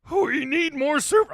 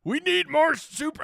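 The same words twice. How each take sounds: First: High comic cartoon voice; squeaky cartoon voice for the super chat; put-on voice. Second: High comic cartoon voice, chuckling; a squeaky cartoon read; put-on voice. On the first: Host reading a super chat in a silly voice. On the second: Host retrying the super chat in a cartoon voice. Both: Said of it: "I gotta do the voice".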